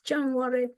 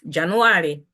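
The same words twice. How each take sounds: First: It is said with an English accent. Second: It is said with a Chitumbuka accent.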